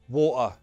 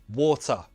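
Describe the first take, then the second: First: The T is replaced by a glottal stop. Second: The T is a clear, released T sound. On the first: "Now the glottal T" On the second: "First, true T"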